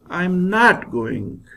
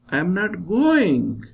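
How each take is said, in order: First: The stress falls on the word not. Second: The stress falls on the word going. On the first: The speaker refuses to go. "Now I stress not" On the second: The speaker is not going but maybe coming. "When I stress going"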